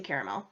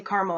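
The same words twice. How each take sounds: First: "caramel" in three syllables, CARE-uh-mel; "caramel" opened with CARE, ending in mel. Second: "caramel" squeezed to two syllables, CAR-mul; "caramel" with no middle vowel, opened with CAR. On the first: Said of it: "I say caramel". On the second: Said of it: "I don't say caramel". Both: Shown as a demonstration.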